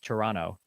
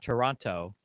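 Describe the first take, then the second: First: The second T is dropped entirely. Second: The second T is clearly pronounced. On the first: The speaker calls it right. "So you don't you don't like pronounce the second T? Yeah" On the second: The speaker calls it wrong. "It's not Toronto"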